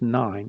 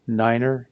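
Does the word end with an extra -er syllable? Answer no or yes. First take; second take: no; yes. First: The word ends without an extra syllable. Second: The word ends with an extra er syllable. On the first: The speaker calls it wrong. "not just nine" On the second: The speaker calls it right. "Niner is"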